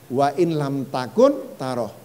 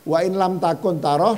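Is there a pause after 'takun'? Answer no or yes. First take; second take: yes; no. First: There is a clear pause after takun. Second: It runs on without a pause after takun. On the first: If you have effaced yourself, you will see Him. "dibaca oleh Ibn Arabi" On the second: If you cannot see Him. "dan kalau kamu tidak bisa melihatnya"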